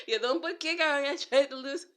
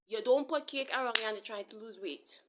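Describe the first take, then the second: First: Laughing. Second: Said in the usual way. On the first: Real, not acted. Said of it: "I'm laughing because I do that". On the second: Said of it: "I hitting myself with it".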